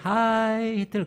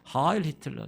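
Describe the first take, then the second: First: The first word ends without an L sound. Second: The first word ends with an L sound. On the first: The speaker calls it wrong. "하이가 아니에요" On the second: The speaker calls it right. "그게 아니라"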